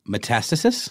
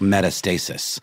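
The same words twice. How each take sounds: First: It is said as one ordinary word. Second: It is said as meta plus stasis. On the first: The spread of disease through the body. "how do you pronounce it again?" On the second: A self-referential state of not moving. "It's like meta not moving"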